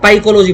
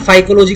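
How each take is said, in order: First: The word begins with a P sound. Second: The word begins with an F sound. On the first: The speaker calls it wrong. "इसको पाइकोलॉजी बोल देता हूँ" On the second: The speaker calls it right. "फाइकोलॉजी कहना ज्यादा better रहेगा"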